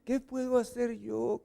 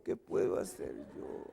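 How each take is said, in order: First: Soft, higher-pitched meek plea; very softly. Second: Hushed, voiceless whisper; very softly. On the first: Helpless husband answering the scolding, soft and meek. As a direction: plead meekly in a small high voice. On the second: Helpless husband answering the scolding, whispered meekly. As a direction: shrink the plea down to a whisper. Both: Acted. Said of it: "Pero muy quedito".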